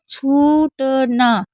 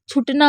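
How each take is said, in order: First: The word is said slowly with a long vowel. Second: The word is said quickly with a short vowel. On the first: The speaker calls it right. "हमने कैसे पढ़ा?" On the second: The speaker calls it wrong. "अगर हम जल्दी बोलते हैं"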